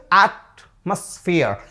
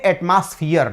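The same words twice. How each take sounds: First: Atmosphere said slowly as ætməsfiər; correct pronunciation. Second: Atmosphere said with a flat a as eitmasfiər; wrong pronunciation demo. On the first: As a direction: model atmosphere with a clear short a. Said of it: "This is atmosphere". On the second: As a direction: Atmosphere mispronounced the common Indian way. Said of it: "No, this is not atmosphere". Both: Shown as a demonstration.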